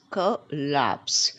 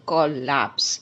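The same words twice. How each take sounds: First: "collapse" slowly split, short kuh then LAPS. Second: "collapse" with a full first syllable, COL-lapse; collapse said wrong. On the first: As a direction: correct "collapse" to a light kuh, stressed LAPS. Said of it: "It's collapse". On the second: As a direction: say "collapse" the mistaken way, as COL-LAPS. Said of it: "It is wrong". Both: Shown as a demonstration.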